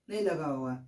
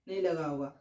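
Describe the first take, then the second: No difference in how they are said.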